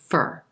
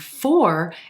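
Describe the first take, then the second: First: The word has a short, reduced vowel. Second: The word has a full, unreduced vowel.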